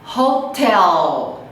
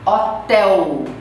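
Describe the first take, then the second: First: The final L is a clear tongue-tip L. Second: The final L sounds like a 'u' vowel. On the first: The speaker calls it right. "Em inglês, a gente tem que pronunciar o L" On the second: The speaker calls it wrong. "É como se fosse um U"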